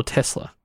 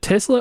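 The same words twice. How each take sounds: First: "Tesla" with an s sound, TESS-la; pronunciation contrast. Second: "Tesla" with a z sound, TEZ-la; pronunciation contrast. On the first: Host offers the other pronunciation, "Tesla" as TESS-la. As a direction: say "Tesla" with a hissed s. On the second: Host asks which pronunciation is right, "Tesla" as TEZ-la. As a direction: say "Tesla" with a buzzing z. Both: Shown as a demonstration. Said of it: "Is it Tesla or Tesla?".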